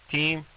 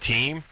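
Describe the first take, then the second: First: It is said with a thick Russian accent. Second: It is said in a plain American accent. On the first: A Russian kid is giving his name. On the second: The listener repeats the name back.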